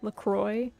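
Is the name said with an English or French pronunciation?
English. The name is said with an anglicized pronunciation. This is how local people changed the name. "the seltzer brand, LaCroix"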